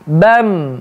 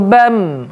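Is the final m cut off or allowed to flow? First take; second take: Flowing; Flowing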